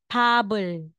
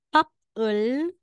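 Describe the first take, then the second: First: The middle consonant is a voiced B sound. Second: The middle consonant is a voiceless P sound. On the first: The speaker calls it right. "magiging pebble" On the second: The speaker calls it wrong. "aside na basahin po natin na papel"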